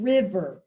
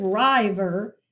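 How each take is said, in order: First: River said as "RIV-er", short i; river with first syllable like "give", low and falling; short-i reading. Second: River said as "RYE-ver", long i; river with first syllable rhyming with "dive"; long-i misreading. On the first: Teacher contrasts the second coding, short-i river. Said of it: "The second one". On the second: Teacher contrasts the first coding, long-i river. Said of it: "So you see the difference". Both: Shown as a demonstration.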